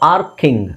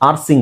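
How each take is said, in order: First: The c is sounded as a k. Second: The c is sounded as an s. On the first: The speaker calls it right. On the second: The speaker calls it wrong. "ಆರ್ಸಿಂಗ್ ಅಲ್ಲ"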